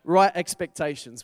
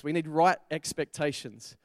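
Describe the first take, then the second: First: Emphatic loud heading. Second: Said in the usual way. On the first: Shown as a demonstration. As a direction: punch "Right expectations" out loud and firm. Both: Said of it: "you ready for number two?".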